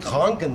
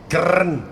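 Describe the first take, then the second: First: The R is pronounced softly, without a trill. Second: The R is pronounced strongly, with a rolled trill. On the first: "en vez de decir" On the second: "dicen Krn, o sea, pronuncian la R"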